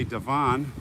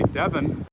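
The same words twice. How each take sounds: First: Devon said deh-VAHN, stress on the second syllable; his own Devon. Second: Devon said DEV-un, stress on the first syllable; English Devon. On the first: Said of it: "the way I say Devon". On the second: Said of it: "I know in England, if you're English". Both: Shown as a demonstration.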